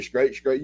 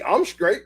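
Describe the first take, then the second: First: Casual shorthand. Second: Said in the usual way. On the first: Shown as a demonstration. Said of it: "I just said". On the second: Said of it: "I ain't just say".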